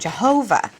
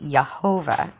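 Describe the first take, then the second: First: The name begins with a J sound. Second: The name begins with a Y sound. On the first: The speaker calls it wrong. "the name Jehovah" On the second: The speaker calls it right. "it would be more accurate to say Yehovah"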